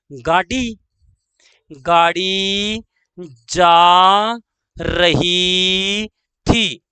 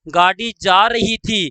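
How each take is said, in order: First: Drawn-out words with pauses between; slow dictation. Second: Said in the usual way. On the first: Shown as a demonstration. Teacher dictating the train example, slow dictation. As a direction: hold each word long for writing down.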